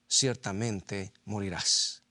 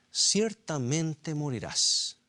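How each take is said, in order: First: Slow and low, weighing each word; slow solemn reading. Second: Ciertamente morirás, slow with ciertamente raised and stressed; emphatic slow repeat. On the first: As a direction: read the verdict slowly and gravely. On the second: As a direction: hammer home the warning slowly. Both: Shown as a demonstration.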